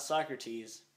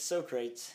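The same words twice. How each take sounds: First: Said in the usual way. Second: "so-crates" for Socrates; misread Socrates. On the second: Shown as a demonstration. Explaining how the word was read, mispronounced. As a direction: say Socrates as "so-crates", two syllables. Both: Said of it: "It was not Socrates".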